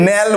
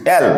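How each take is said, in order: First: ন্যাল said with an n sound at the start, the wrong way; wrong pronunciation. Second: অ্যাল said with an open vowel start and no n; correct pronunciation. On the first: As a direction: say ন্যাল the way many students get it wrong. (ভুল উচ্চারণ ন্যাল, শুরুতে ন ধ্বনি দিয়ে) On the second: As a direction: give the right form অ্যাল, clearly, no n sound. (সঠিক উচ্চারণ অ্যাল, ন ছাড়া খোলা স্বরে) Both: Shown as a demonstration. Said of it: "ন্যাল না কিন্তু".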